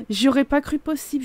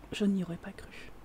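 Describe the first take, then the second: First: Said in the usual way. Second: Whispered, much softer. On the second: Shown as a demonstration. Player confiding to viewers in a whisper. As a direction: breathe it as a secret to the viewers. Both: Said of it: "repeats it whispered".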